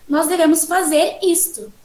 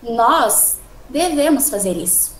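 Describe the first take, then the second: First: The word isto is emphasized. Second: The word nós is louder, followed by a pause. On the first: This particular decided thing must be done, not another. "o foco no isto" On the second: We, not others, are the ones who should do it. "eu tentei falar um pouco mais alto nós, um pouco, dar uma pausa"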